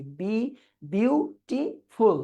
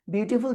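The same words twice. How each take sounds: First: beautiful split slowly into its syllables. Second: Said in the usual way. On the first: Shown as a demonstration. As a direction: break beautiful into slow, separate beats. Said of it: "কয়টা syllable দেখি". (Beautiful শব্দটি syllable ভেঙে ধীরে) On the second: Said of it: "beautiful যখন বলি".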